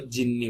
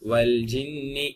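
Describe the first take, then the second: First: The L merges into a doubled J sound. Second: The L is clearly pronounced before the J. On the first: The speaker calls it wrong. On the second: The speaker calls it right.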